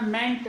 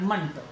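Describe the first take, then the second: First: The vowel is a full 'e' as in 'bet'. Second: The vowel is a weak, short 'uh' sound. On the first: The speaker calls it wrong. "मेंट नहीं बोलना है इसको" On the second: The speaker calls it right. "मंट बोलना है"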